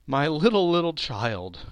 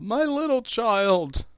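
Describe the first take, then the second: First: Raised cry, falling away; grieving cry. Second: High, slow wail of grief; breaking down. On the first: Bob mourns his lost son Tiny Tim, grieving cry. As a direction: let grief rise, then sink. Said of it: "cried Bob". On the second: Bob breaks down over his dead child, grieving wail. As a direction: cry it out, drawing the words long. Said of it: "He broke down all at once". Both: Acted.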